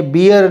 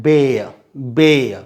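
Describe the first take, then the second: First: "बियर" said as bee-ur, two syllables; the mistaken reading "बियर" with a long ee; wrong pronunciation. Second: "बेय" said as one syllable, like bay-uh; slow, careful "बेय, बेय" to model the right sound; correct pronunciation. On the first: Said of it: "इसका pronunciation कभी भी बियर नहीं होता". (गलत उच्चारण "बियर") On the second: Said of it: "तो ये बियर ना पढ़ें". (सही उच्चारण "बेय") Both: Shown as a demonstration.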